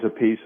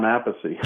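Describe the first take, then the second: First: "Appice" in two syllables, a-PEECE. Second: "Appice" in three syllables, AP-a-see. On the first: Explaining his brother's surname in the lobby, "[name]" said a-PEECE. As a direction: say "Appice" as a-PEECE, stressed last. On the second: Explaining his own surname in the lobby, "[name]" said AP-a-see. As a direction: say "Appice" as AP-a-see, stressed first. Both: Shown as a demonstration. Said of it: "I had to tell him".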